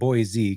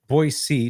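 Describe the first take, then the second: First: It is pronounced the way newcomers say it. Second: It is pronounced the way locals say it. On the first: The speaker calls it wrong. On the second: The speaker calls it right.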